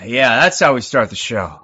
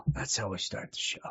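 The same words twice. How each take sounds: First: Said in the usual way. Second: Breathy whisper, much softer. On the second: Real, not acted. Streamer echoing his own opener to viewers, hushed whisper. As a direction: let it drop to a hushed whisper.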